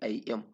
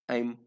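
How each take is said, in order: First: It is said as two separate syllables. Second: It is contracted into one syllable. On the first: "not I am"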